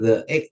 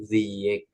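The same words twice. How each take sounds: First: The word 'the' is said as 'thuh'. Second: The word 'the' is said as 'thee'. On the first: The speaker calls it wrong. "bukan the egg" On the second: The speaker calls it right. "tapi the egg gitu"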